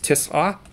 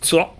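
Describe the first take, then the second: First: It is said in the standard Arabic form. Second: It is said in the Moroccan dialect form. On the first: "but in standard Arabic, it's tis'a" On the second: "In Morocco, it's tsa"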